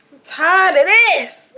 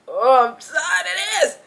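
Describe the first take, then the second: First: Louder, higher, slow and drawn out; fed up. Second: Fed up. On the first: Fed up with the housemates, loud and drawn out. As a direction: let it all out, done with it. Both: Retold or imitated. Thinking in own head, fed up.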